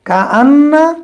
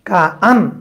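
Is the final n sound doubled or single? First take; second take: doubled; single. First: The n is doubled and followed by a vowel. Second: The n is single and ends without a vowel. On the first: "মুসাক্কালা মানে কা আন্না" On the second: "এই যে তাসদিদকে সুকুন দিয়ে পড়লাম, এটাকে বলে মুখাফফাফা"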